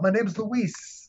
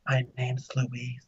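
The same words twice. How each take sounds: First: It is said loudly and boldly. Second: It is said softly and quietly.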